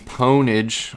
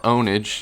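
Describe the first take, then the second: First: The word begins with a p sound. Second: The word begins with a vowel sound. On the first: The speaker calls it right. "I prefer to pronounce the P" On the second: The speaker calls it wrong. "if you want to mispronounce the word"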